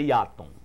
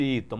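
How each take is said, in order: First: It is read as spelled, with three Portuguese syllables. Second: It is said as the English name, two syllables. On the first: This is how the spelling reads in Portuguese. "quando se pronuncia as letras é Iaton" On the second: This is the name's original American pronunciation. "nós chamamos de Eaton"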